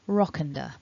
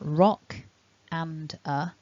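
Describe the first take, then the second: First: The words blend together into one reduced chunk. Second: The words are said separately, in full forms.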